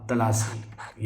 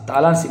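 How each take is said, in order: First: तलासी with a short first vowel; correct form. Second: तालासी with a long first vowel; wrong form. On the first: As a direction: say तलासी as "ta-laa-see". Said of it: "ये सही होगा". (तलासी में "त" छोटा बोलें) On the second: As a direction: say तालासी as "taa-laa-see". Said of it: "तालासी नहीं होगा". (तालासी में "ता" लंबा बोलें) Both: Shown as a demonstration.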